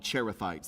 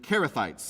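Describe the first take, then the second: First: The word begins with a soft ch sound. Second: The word begins with a hard k sound. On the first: The speaker calls it wrong. "That's very North American English" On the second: The speaker calls it right. "like the hard C H, like the Greek style"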